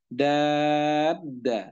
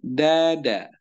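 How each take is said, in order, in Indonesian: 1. Vokal panjang dibaca enam harakat. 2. Vokal panjang dibaca dua harakat. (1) "dibaca enam harokat" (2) "Da-nya dua harokat"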